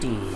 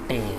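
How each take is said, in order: First: The vowel is 'ee', not rhyming with obey. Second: The vowel is 'ay', rhyming with obey. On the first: This is the later, modern way of saying the word. The speaker calls it wrong. "not t" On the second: This is how the word was said in the poet's time. The speaker calls it right. "here it is pronounced as te, ... it is rhymed with obey"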